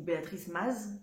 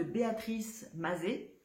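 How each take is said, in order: First: "Maz" as one syllable, z sounded; alternative pronunciation. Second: "Mazet" ending in an open "ay" sound; alternative pronunciation. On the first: Vlogger unsure of the designer's name, trying "Maz" in one syllable. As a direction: say "Maz" ending on a buzzed z. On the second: Vlogger naming a designer, trying "Mazet" as ma-zay. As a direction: say "Mazet" as two syllables, ma-zay. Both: Shown as a demonstration. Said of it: "je sais pas comment ça se prononce".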